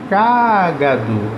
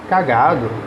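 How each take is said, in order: First: The stress is on the first syllable. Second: The stress is on the second syllable. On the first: It is a noun naming an animal. "eu tenho a minha antepenúltima sílaba mais forte" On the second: It is a verb participle describing a state. "a sílaba tônica é o G"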